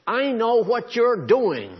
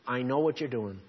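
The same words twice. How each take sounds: First: "I know what you're doing" cried out high, loud and slow, leaning on "you're"; Almighty's loud slow warning; emphatic declaration. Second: Said in the usual way. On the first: Shown as a demonstration.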